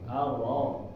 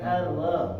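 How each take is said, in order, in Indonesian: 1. Suku kata itu terdengar tebal dan berat. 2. Suku kata itu terdengar tipis, diucapkan dengan bibir tersenyum. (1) "seperti cemberut" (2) "Bukan senyum juga ... ini keliru ya"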